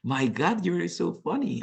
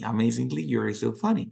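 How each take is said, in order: First: Bright "you are so funny", pitched up; genuine delight. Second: Said in the usual way. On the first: Shown as a demonstration. Teacher showing sincere praise to students, delighted. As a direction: sound truly amused and impressed. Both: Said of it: "I say like".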